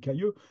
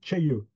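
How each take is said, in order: First: It starts with a plain k and standard vowel. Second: It starts with a ch-like sound. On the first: The speaker calls it wrong. "ni cailleux" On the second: The speaker calls it right. "ça se dit tcheilleux"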